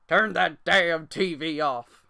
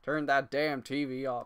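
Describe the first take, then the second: First: It is said in a put-on old man's voice. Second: It is said in the speaker's normal voice. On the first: "Let me" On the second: "I can't do his voice"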